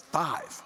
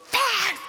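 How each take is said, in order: First: Modest offer. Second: High-pitched mock disbelief; incredulous wife. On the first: Retold or imitated. Husband naming an offering amount to his wife, quietly. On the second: Wife balking at her husband's small offering, incredulous. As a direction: squeal it back as a shocked question.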